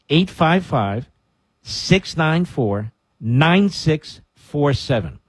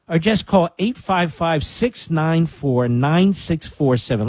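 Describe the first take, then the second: First: It is said slowly. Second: It is said at normal speed.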